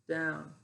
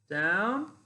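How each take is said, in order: First: The pitch stays level on the word. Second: The pitch goes from low to high. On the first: More repetitions are still to come. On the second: This is the last repetition.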